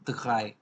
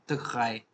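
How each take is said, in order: No difference in how they are said.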